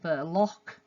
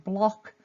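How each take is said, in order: First: A short schwa vowel separates the b and l. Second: The b and l are joined with no vowel.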